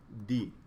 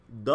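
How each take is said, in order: First: दी, "the" with a long ee vowel; "the" as dee. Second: द, "the" with a short neutral uh vowel; "the" as duh. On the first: Teacher showing students the second way to say "the", as दी with long ee. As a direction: say दी, rhyming with "see". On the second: Teacher showing students the first way to say "the", as द with short uh. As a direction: say द, rhyming with "duh". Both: Shown as a demonstration. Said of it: "इसको दो तरह से हम लोग pronounce करते हैं".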